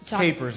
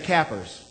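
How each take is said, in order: First: It uses the standard, non-regional pronunciation. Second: It uses the Northwest Missouri regional pronunciation. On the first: The speaker calls it right. "I don't think that's the way you say it, is it? Capers, I believe" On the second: The speaker calls it wrong. "in Northwest Missouri, we'd say cappers"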